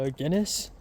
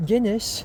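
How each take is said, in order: First: Said in the usual way. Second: Mock British disbelief, high and loud; British bartender. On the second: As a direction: scoff at the order in a British voice. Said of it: "this British guy".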